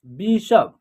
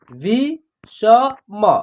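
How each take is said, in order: First: Said in the usual way. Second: "वि स म" as three separate sounds; spelled out by syllable. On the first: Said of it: "एक शब्द तैयार हो जाएगा". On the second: Shown as a demonstration. Teacher sounding out letters for learners, "वि स म" piece by piece. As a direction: pause between each part of "वि स म". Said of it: "तीनों को जोड़ेंगे तो एक शब्द".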